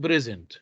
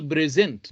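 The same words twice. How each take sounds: First: "present" as PRE-sent, first syllable stressed. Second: "present" as pre-SENT, slow, second syllable stressed. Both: Shown as a demonstration. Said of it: "not present".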